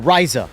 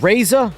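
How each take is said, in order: First: The first vowel sounds like in rise. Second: The first vowel sounds like in razor. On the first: "like you rise" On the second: "like a razor, like you shave"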